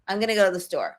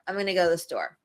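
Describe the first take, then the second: No difference in how they are said.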